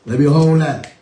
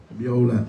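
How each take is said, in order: First: Laughing through the words. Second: Said in the usual way. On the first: Acted. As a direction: say it while cracking up. Joking banter, laughing request.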